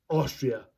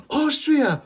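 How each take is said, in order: First: Said in the usual way. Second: Much higher, hammed-up astonished repeat; high-pitched, over-excited question; excited movie-quote outburst. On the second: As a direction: blurt it back like a goofy comic. Acting out Lloyd's loud reply.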